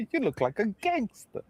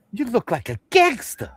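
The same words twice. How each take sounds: First: High, soft mock mom voice while laughing; laughing high imitation of the mom; mom quote again. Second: High, louder mock mom voice; high playful mom imitation; mom quote. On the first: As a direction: say it again, pitched way up and softer. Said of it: "Remember that?". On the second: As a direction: quote the proud mother pitched way up. First take of mom quote.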